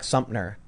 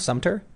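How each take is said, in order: First: The name is slurred together loosely. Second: The name is clearly and carefully enunciated. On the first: The speaker calls it wrong. "I was just like slurring it" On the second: The speaker calls it right. "Did I just say it correctly now"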